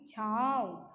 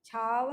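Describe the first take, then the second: First: छाँव with आँ through the nose; nasal vowel in छाँव; nasalized vowel. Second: छाँव said as "chhaav", oral vowel; wrong, without nasalization. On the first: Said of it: "इसका स्वर नाक से निकलता है". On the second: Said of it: "छाँव नहीं". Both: Shown as a demonstration.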